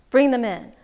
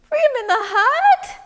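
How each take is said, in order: First: Said in the usual way. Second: High, loud disbelief; incredulous question. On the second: Acted. Man to wise woman about her advice, incredulous. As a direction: squeal it back as a question.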